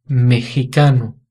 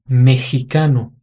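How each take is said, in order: No difference in how they are said.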